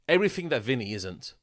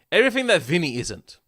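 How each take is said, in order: First: Said in the usual way. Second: Higher and louder, punching "Everything"; emphatic repeat. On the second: Real, not acted. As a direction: hammer the jab home on the repeat. Repeats the line, then stresses it.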